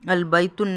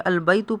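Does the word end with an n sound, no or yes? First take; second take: yes; no. First: The word ends with an added n sound. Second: The word ends on a short u vowel. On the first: The speaker calls it wrong. "अलबैतुन नहीं" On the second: The speaker calls it right. "बल्कि अलबैतु पढ़ेंगे"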